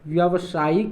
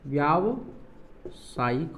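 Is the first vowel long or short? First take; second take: short; long. First: The first vowel is short. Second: The first vowel is long. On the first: The speaker calls it wrong. "नहीं होगा" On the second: The speaker calls it right. "होगा"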